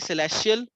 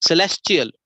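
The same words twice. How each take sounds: First: The word is said without a ch sound. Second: The word is said with a ch sound. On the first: The speaker calls it wrong. "We can't say celestial" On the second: The speaker calls it right. "That is why the ch sound comes. Celestial, we call it"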